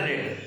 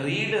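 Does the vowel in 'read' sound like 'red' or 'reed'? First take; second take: red; reed. First: The vowel is short, like 'red'. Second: The vowel is long, like 'reed'. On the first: It is the past form of the verb. "Simple past past పార్టిసిపుల్ని రెడ్ రెడ్గా pronounce చేయడం జరుగుతుంది" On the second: It is the present form of the verb. "V one వి two V three same spelling ఉంటుంది కానీ pronunciation తేడాగా ఉంటుంది"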